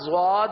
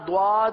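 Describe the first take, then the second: First: The first sound is like a z. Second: The first sound is like a d. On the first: "نہ یہ و کی طرح زواد ہے" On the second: "نہ یہ حرف دال کی طرح دواد ہے"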